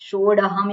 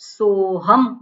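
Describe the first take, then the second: First: A 'd' sound is heard between 'so' and 'ham'. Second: 'So' runs straight into 'ham' with no consonant. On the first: The speaker calls it wrong. "એવું ના બોલાય" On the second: The speaker calls it right. "સોહમ બોલવાનું"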